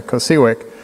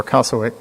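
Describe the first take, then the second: First: "cosiwic" said koh-SEE-wick; first pronunciation. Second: "cosiwic" said KAH-suh-wick; alternative pronunciation. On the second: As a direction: say "cosiwic" with an open AH and a weak middle vowel, like kah-suh-wick. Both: Shown as a demonstration. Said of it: "pronounce it the other way".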